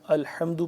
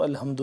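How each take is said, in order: First: Strong mid-throat ح in الحمد; correct throaty haa. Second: Plain deep-throat ہ in place of ح in الحمد; wrong light h. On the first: Teacher shows the proper reading, throaty haa. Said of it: "الحمد پڑھتے ہیں اس کو". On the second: Teacher shows the mistake, light untightened h. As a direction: say الحمد with an ordinary loose h. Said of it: "الحمد نہیں پڑھتے". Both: Shown as a demonstration.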